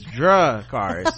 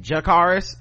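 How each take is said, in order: First: The name is said slowly and carefully. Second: The name is said quickly and loosely. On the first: The speaker calls it right. "like Game of Thrones" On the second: The speaker calls it wrong. "I pronounce it wrong and fast sometimes"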